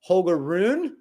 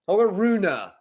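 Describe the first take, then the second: First: The name ends on an 'oon' sound. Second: The name ends on an 'oona' sound. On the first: The speaker calls it right. "I'd rather hear Hogaroon" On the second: The speaker calls it wrong. "it's the wrong vowel there"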